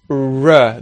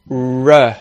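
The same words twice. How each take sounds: The two takes are said the same way.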